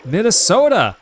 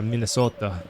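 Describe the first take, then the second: First: Loud, high Minnesota accent; exaggerated Minnesota accent. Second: Understated imitation of a Minnesota accent; remembered Minnesota accent. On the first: Shown as a demonstration. Streamer hamming up Minnesota for a viewer, exaggerated Minnesota accent. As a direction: belt it out in a hammed-up Minnesota accent. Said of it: "Oh, that accent's awful". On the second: Streamer recalling how locals said it, low-key Minnesota accent. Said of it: "I remember the way they said".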